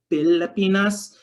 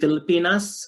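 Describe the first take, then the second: First: The word begins with a P sound. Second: The word begins with an F sound. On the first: The speaker calls it right. "we say Pilipinas" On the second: The speaker calls it wrong. "we don't say Filipinas"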